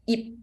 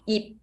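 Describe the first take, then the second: The two takes are said the same way.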